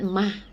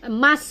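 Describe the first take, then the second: First: The final s is dropped, ending breathily. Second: The final s is clearly pronounced.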